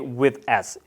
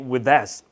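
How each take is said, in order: First: The words are said separately without linking. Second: The words are linked together smoothly. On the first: The speaker calls it wrong. "You shouldn't say" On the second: The speaker calls it right. "You should say"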